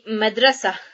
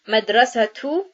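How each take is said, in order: First: The word ends without any t sound. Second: The word ends with a t sound and vowel. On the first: The word is the last one before a stop. "when we stop on a ta marbuta, it is pronounced as the letter ha" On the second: Another word follows it. "if we were to add a word after it, the ta marbuta then would be pronounced as the letter ta"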